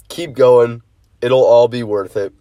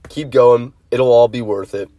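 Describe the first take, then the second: First: It is spoken slowly with the words clear. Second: It is spoken faster with the words mumbled. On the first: The speaker calls it right. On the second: The speaker calls it wrong.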